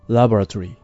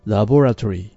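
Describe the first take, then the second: First: It is said with an American English pronunciation. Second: It is said with a British English pronunciation. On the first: "アメリカはLaboratory。" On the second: "イギリス英語ではLaboratory なんですね。"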